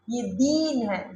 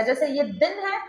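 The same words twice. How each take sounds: First: दीन with a long held ee, said slowly; long vowel. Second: दिन with a short clipped i; short vowel. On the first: Teacher contrasting दिन and दीन, long slow ee. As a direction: stretch the ee in दीन. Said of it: "ये long sound है दीन". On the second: Teacher contrasting दिन and दीन, short vowel. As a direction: say दिन quickly, short ee cut off. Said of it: "ये short sound है दिन". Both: Shown as a demonstration.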